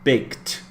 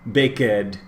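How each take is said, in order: First: The ending is a plain T sound. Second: The ending is an extra syllable. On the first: The speaker calls it right. "the end of the word will sound like a T" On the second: The speaker calls it wrong. "You can't say ... bake ed"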